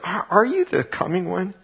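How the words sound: It is read with a doubting, questioning inflection.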